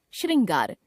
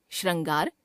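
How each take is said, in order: First: Said in the usual way. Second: श्रृंगार as "shran-gaar"; mispronounced ri. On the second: Shown as a demonstration. Teacher showing a common error, श्रृंगार with ra for ri. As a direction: put "ra" for "ri" in श्रृंगार. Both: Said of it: "र, री संबंधी अशुद्धियां".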